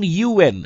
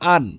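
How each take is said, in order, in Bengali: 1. এটা দুটি আলাদা অক্ষর হিসেবে বলা হয়। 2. এটা একটি মিলিত শব্দ হিসেবে বলা হয়। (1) "আমরা যখন এইভাবে কোনো কিছুকে উচ্চারণ করব" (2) "আমরা তো বলবো না আন"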